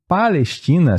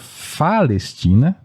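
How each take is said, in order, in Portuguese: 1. A palavra começa com som de P. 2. A palavra começa com som de F.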